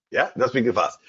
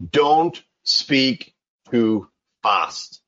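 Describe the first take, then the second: First: Said in the usual way. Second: Very slow, stretched "Don't speak too fast"; deliberate slow delivery of the rule; slow emphatic advice. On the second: Shown as a demonstration. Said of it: "the most important one".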